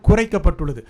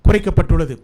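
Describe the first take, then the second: No difference in how they are said.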